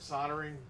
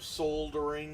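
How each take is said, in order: First: The word is said the American way. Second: The word is said the British way. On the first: "I'm in America" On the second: "if you're in the U K"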